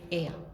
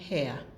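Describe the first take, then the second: First: The word begins with a vowel sound. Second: The word begins with an H sound. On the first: The speaker calls it right. "we don't pronounce the H, we say heir" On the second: The speaker calls it wrong. "we don't say hair"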